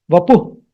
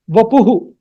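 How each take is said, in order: First: Vapuh ending in a bare breath of h; actual visarga pronunciation. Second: Vapuhu, ending in an echoed "hu"; South Indian visarga. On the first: Teacher gives actual pronunciation, vapuh with no final hu. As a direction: end vapuh on h, no added vowel. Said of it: "The actual pronunciation is". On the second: Teacher shows how South India says it, Vapuhu with echoed ending. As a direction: say Vapuhu with an extra final hu syllable. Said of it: "South India, they will pronounce it as". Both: Shown as a demonstration.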